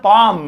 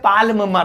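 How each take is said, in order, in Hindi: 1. इस शब्द में L की आवाज़ नहीं बोली जाती। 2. इस शब्द में L की आवाज़ बोली जाती है। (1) "इसमें एल साइलेंट है" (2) "पाल्म मत पढ़ देना"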